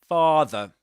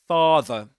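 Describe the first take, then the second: Both takes have the same delivery.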